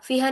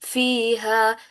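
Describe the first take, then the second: First: The vowels are cut short. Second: The vowels are held long. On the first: The speaker calls it wrong. "फीहा फीहा नहीं करना इसको" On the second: The speaker calls it right. "फीहा या मद्दा बनती है"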